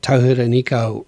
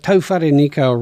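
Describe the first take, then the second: First: The second syllable sounds like 'hi'. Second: The second syllable sounds like 'fa'. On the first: The speaker calls it wrong. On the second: The speaker calls it right.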